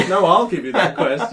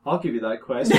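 First: Louder, laughing copy of the NPC; same NPC voice, louder. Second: Same NPC voice. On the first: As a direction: repeat the line as a second identical NPC. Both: Retold or imitated. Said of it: "the same voice the whole way".

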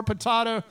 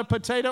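First: "potato" said as puh-TAH-to; variant pronunciation. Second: "Potato" said as puh-TAY-to; long a in the middle of "Potato"; variant pronunciation. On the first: Pastor joking about two ways to say it, "potato" as puh-TAH-to. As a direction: open ah in the middle of "potato". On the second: Pastor joking about two ways to say it, "Potato" as puh-TAY-to. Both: Shown as a demonstration. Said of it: "How do you say it?".

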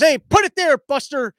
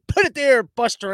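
First: Loud, higher, mock-hearty handshake call; a cheery put-it-there shout to nobody; imitating Biden. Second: Louder mock-hearty handshake line; a cheery put-it-there call; imitating Biden. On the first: Biden hails an empty stage for a handshake, imitated loud and high. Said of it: "he turns to the side and goes". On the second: Biden's handshake call to no one, mock-hearty. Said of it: "he came out with this".

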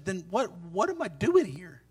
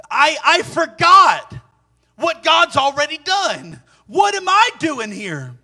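First: Low, soft, halting question; questioning himself. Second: High, slow, drawn-out realization; dawning self-questioning. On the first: Elijah begins to ask himself the question, low and halting. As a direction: ask it under your voice, as if to yourself. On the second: Elijah realizing he forgot God, high, slow self-questioning. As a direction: stretch each phrase high, as it sinks in. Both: Acted. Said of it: "begins to ask himself the question".

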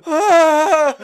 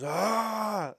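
First: Much higher, much louder imitated shriek, laughing; terrified scream. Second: Higher, imitated attempt at a big scary roar; mock growl. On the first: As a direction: shriek like a scared hiker facing a lion. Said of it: "he's clearly so terrified". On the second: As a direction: play the brave first roar, half-hearted. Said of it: "he growls at it".

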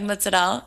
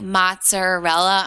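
First: MOZZARELLA as "mootsa-dell", no final vowel; family's pronunciation. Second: MOZZARELLA slowly, every syllable, "matser-RELLA"; standard outsider pronunciation. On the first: Shown as a demonstration. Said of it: "that's how we say it". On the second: Retold or imitated. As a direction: spell out "Mozzarella" slowly with full final vowel. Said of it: "if I go out and somebody's like".

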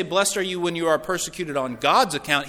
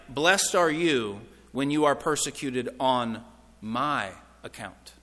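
First: Quicker run-through with "God's" punched; stress on GOD'S. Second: Slow, with MY drawn out and set apart, "account" dropped low; stress on MY. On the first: Preacher showing what Jesus didn't say, stress on GOD'S. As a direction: hit "God's" as the contrasting word. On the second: Preacher showing Jesus claims his own authority, stress on MY. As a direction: hold "my", pause, then let "account" fall away. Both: Shown as a demonstration. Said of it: "He didn't, he didn't say".

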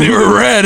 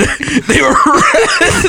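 First: Said in the usual way. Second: Much higher, slowed and laughing; laughing repeat. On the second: Real, not acted. Friend confirming the red underwear, laughing it out. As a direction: laugh through the answer, drawing it out.

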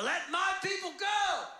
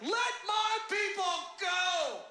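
First: Raised, drawn-out demand; commanding shout. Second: High, loud, stretched-out bellow; shout with gusto. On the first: Moses confronts Pharaoh in the palace, commanding. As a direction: proclaim it to a ruler, not yet all out. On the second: Aaron retries the demand to Pharaoh, with gusto. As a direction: belt out the demand with overblown confidence. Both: Acted. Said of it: "Say it with more gusto this time".

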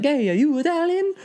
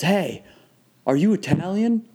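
First: Very high cartoon Italian accent; squeaky-high mock Italian accent; Mario accent. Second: Lightly imitated curbside stranger, pitched up; raised-pitch retold call-out, only lightly acted; retold stranger's question. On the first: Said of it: "classic Mario accent". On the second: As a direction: ask it higher, as a stranger pulling up. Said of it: "he goes".

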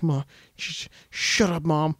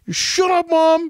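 First: Hesitant, softer mumbled objection; timid protest. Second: Mock defiant yell. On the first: Retold or imitated. Timid kid muttering back at his mom, hesitant and quiet. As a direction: stammer it out softly, barely daring to say it. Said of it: "he's usually pretty timid". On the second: Timid kid finally talking back to his mom, mock defiant yell. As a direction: snap suddenly into a high yell.

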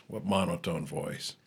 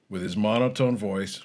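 First: Flat, slow deadpan denial; dry monotone, slow and soft. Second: Said in the usual way. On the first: Shown as a demonstration. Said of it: "Can't you hear all the excitement and inflection?".

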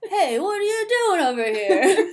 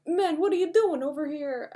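First: Loud, high, hammed-up Stallone accent; big goofy Stallone accent, breaking into laughter; Stallone impression. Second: Put-on high, loose stab at Stallone's accent; rough Stallone accent, not quite landing; attempted Stallone accent. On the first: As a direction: belt out a comic Stallone accent. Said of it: "I don't know if that was my good". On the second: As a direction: try Stallone's accent, pitched up and half-hearted.

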